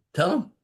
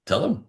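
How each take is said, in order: First: "Tell him." much higher, with him rising hard; insistent repeat. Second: "Tell him." said firmly with him rising a bit; a plain, gentle push to speak up; firm urging. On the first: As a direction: push it again, pitched way up and insistent. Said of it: "I go". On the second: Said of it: "I said". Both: Retold or imitated.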